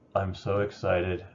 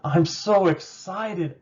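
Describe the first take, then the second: First: The voice sounds flat and unenthusiastic. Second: The voice sounds lively and enthusiastic. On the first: The speaker is not really excited. The speaker calls it wrong. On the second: The speaker is genuinely excited. The speaker calls it right.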